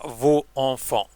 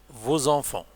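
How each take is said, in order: First: The final s of vos is silent. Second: The final s of vos links as z. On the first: The speaker calls it wrong. "On ne dit pas" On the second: The speaker calls it right. "la liaison est obligatoire"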